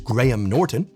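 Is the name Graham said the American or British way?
British. It uses the British pronunciation of Graham. The speaker calls it right. "a British person says their name is"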